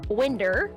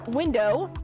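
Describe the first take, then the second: First: The word ends with an 'er' sound. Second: The word ends with a clear 'oh' vowel.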